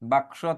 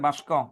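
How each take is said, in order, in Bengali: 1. ক ধ্বনিটি স ধ্বনির আগে আসে। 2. ক ধ্বনিটি স ধ্বনির পরে আসে। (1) "ক এর জায়গায় স" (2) "স এর জায়গায় ক"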